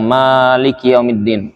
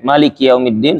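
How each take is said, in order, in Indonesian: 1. Vokal pertama pada Maliki dibaca panjang. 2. Vokal pertama pada Maliki dibaca pendek. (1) "bacanya panjang" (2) "Kalau dia pendek"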